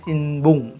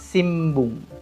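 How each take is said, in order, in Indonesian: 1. Bunyi sebelum b adalah n. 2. Bunyi sebelum b adalah m. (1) "Dia tulisannya Sinbung" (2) "tapi membacanya Simbung"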